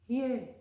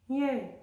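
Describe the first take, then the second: No difference in how they are said.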